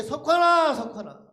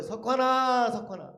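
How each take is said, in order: First: High, very loud name call, then dropping off; louder calling. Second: Raised, drawn-out name call, then falling away; calling again from outside. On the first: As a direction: belt out the name as if from outside. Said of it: "더 크게". (더 크게 외쳐 부르는 소리) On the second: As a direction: imitate someone calling him from outside. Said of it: "누가 저를 또 부르는 거예요". (밖에서 길게 이름을 부르는 소리) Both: Retold or imitated.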